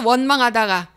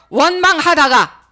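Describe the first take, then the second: First: Said in the usual way. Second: Preaching climax. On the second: Acted. Refrain peaks at list end.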